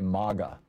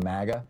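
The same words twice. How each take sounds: First: The word sounds European, unlike 'maggot'. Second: The word sounds close to 'maggot'. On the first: "like, you know, hey, we're in Europe now" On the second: "It sounds too close to maggot"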